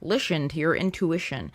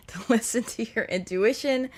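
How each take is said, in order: First: Said in the usual way. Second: Laughing. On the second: Real, not acted. Repeats phrase while laughing.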